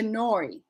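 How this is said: The vowel is a broad shifting diphthong. "turns into nori"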